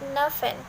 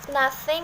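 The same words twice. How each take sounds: First: The middle consonant is an f sound. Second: The middle consonant is a th sound.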